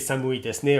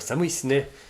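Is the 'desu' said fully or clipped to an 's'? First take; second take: fully; clipped. First: The word desu is said as a fuller syllable. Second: The word desu is clipped down to an s.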